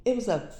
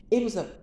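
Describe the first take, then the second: No difference in how they are said.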